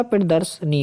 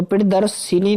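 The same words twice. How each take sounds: First: प्रदर्शनी as pir-dars-ni; no i after the s in प्रदर्शनी; corrected pronunciation. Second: प्रदर्शिनी with extra i, dars-si-ni; wrong pronunciation. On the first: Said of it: "होता है". (प्रदर्शनी में 'र्सनी' बोलें) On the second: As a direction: sound si-ni in प्रदर्शिनी. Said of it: "नहीं होता". (प्रदर्शिनी में 'सिनी' बोलें) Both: Shown as a demonstration.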